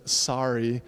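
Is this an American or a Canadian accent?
American. It is said in an American accent. "instead of sorry, as we do in the U S"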